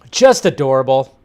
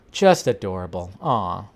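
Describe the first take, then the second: First: Bright, eager "Just adorable."; gushing delight. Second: A soft, lower-volume "Just adorable."; tender murmur. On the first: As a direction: gush over the photo. Cooing at Mark Hamill with Grogu. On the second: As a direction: melt over it, repeated quietly. Repeats, then sighs aw. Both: Real, not acted.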